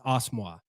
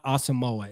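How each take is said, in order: First: The name is said in a shorter, clipped form. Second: The name is said in its longer, anglicized form. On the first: This is how the player says his own name. The speaker calls it right. "it's Osmoa" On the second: This is how people had been saying the name. The speaker calls it wrong. "it's not Asamoah"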